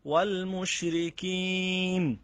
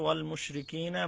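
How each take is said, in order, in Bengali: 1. বাক্যাংশটি শেষের স্বরধ্বনি ছাড়া হঠাৎ থেমে যায়। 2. বাক্যাংশটি শেষের 'a' স্বরধ্বনি দিয়ে শেষ হয়।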